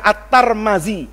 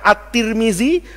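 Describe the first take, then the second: First: The name is said with a vowels throughout. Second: The name is said with i vowels throughout. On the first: "boleh dibaca At-Tarmazi" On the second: "ini boleh dibaca At-Tirmizi"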